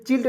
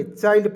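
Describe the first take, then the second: First: चिल्ड said with a short i, like chilled; wrong pronunciation. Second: Put-on चाइल्ड said with a long ai, as in child; correct pronunciation. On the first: Teacher shows students the wrong reading, चिल्ड with a short i. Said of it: "इसे चिल्ड नहीं पढ़ेंगे". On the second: Teacher gives students the right reading, चाइल्ड with a long ai. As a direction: say चाइल्ड clearly with the ai sound. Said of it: "चाइल्ड पढ़ेंगे". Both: Shown as a demonstration.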